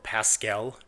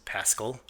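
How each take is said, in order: First: A fancier, more refined pronunciation of the name. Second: A plain, everyday pronunciation of the name.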